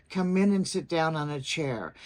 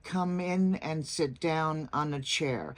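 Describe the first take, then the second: First: Smooth, joined "Come in and sit down on a chair"; flowing phrase with "Come in" linked; linked words. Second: Slow, separate words in "Come in and sit down on a chair"; unlinked words. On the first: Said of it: "see the smoothness of the sentence". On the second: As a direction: break between each word from "Come" to "chair". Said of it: "instead of". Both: Shown as a demonstration.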